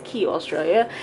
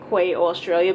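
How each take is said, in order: First: The first word is said like 'key'. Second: The first word is said like 'kway'. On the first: The speaker calls it right. "but it's Key Australia" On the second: The speaker calls it wrong. "I always say Quay Australia"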